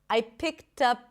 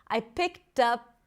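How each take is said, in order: The two takes are said the same way.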